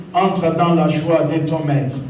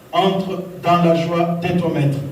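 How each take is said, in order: No difference in how they are said.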